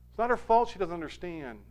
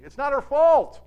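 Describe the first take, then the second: First: Said in the usual way. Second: FAULT punched high and loud; emphatic. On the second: Real, not acted. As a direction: hit "fault" hard and high, then let it fall. Emphatic point, then repeated.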